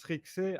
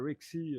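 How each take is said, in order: First: The name is pronounced the French way. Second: The name is pronounced the English way. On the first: "en français, ça se prononce Rixé" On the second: "si tu veux le prononcer en anglais"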